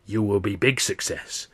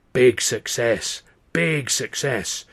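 First: Lightly voiced old fortune teller; a hint of a rasping seer, stressing very; mildly mystic old woman promising success. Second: Slow, drawn-out big success, louder; slow rasping fortune teller repeating it; slow rasping seer. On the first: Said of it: "this old Chinese woman says". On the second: Retold or imitated. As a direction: rasp each big success like a prophecy. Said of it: "the old woman's rasping voice".

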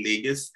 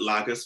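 First: Lagos said LAY-gos, with a long a as in day; correct pronunciation. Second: Lagos said LAG-os, with a short a as in bag; imitating mispronunciation. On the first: Shown as a demonstration. Correcting the interviewer, Lagos as LAY-gos. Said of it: "I know you called it Lagos". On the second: Echoing the interviewer's mispronunciation, Lagos with a short a. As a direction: mimic the wrong way: Lagos with a flat short a. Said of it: "but it's actually Lagos".

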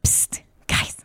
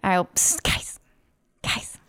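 First: Louder stage whisper. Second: Hushed psst to the group; whisper. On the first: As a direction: whisper so the mic picks it up. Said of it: "Let's whisper a little louder 'cause it's really hard to pick up". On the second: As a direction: whisper to get their attention. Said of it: "Let's whisper a little louder". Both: Pretend.

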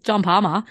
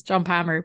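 First: Aussie accent. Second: Said in the usual way. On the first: Shown as a demonstration. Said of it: "is the way they say it". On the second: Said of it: "I say it in an Aussie accent".

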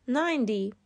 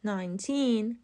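First: Ninety with NINE stressed, NINE-ty; ninety, stress on the first syllable. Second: Put-on nineteen with teen stressed, nine-TEEN; nineteen, stress on the second syllable. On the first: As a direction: put the weight on NINE in ninety. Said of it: "استرس کلمهٔ نود روی سیلاب اول". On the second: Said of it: "استرس کلمهٔ نوزده روی سیلاب دومه". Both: Shown as a demonstration.

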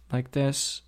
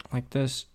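The two takes are said the same way.

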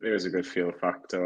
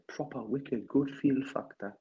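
First: Said in the usual way. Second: Slow, higher-pitched put-on voice; Lee Lawler. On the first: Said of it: "or as Lee said". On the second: Teasing the absent pal about feel factor, impression. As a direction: draw it out in a raised mock voice. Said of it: "if that was my impression of Lee Lawler".

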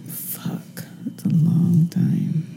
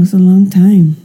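First: Slow, breathy whisper. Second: Said in the usual way. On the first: Real, not acted. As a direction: whisper it slowly to yourself. Whispered repeat of long time.

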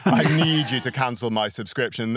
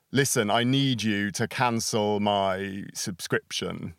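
First: Said in the usual way. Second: Slow, deliberate demand to cancel; firm phone demand. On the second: Retold or imitated. Caller on the phone to a company, slow firm demand. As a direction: spell it out slowly to the customer service agent. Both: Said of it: "you call them up and you're like".

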